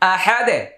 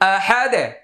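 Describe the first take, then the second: First: The word stops on a bounced, echoing 'd'. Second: The same.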